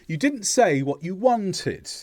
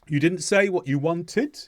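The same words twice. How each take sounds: First: The pitch falls on the final syllable. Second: The pitch rises on the final syllable. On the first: It is a statement. "that drop on the final syllable indicates that it's a statement" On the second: It is a question. "The intonation goes up on the final syllable"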